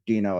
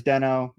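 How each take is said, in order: First: "Dino" as DEE-noh, long first vowel; official Dino pronunciation. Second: "Deno" as DEN-oh, short first vowel; original Deno pronunciation. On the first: Presenter giving the company's official name, "Dino" as DEE-noh. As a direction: give "Dino" an ee, as in "see". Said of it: "changed it to Dino officially". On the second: Presenter recalling the original name, "Deno" as DEN-oh. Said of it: "Originally it was". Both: Shown as a demonstration.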